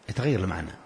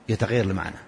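The two takes are said the same way.

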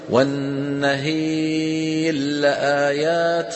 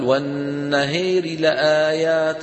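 First: The r is merged fully into the following l. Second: The r is voiced faintly and quickly before l. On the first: "هذا الإدغام" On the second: "ينطق راء بصوت منخفض ويسرع قليلا"

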